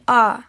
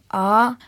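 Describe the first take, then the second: First: The syllable is said in the falling fourth tone. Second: The syllable is said in the rising second tone. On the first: "четвертым" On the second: "вторым"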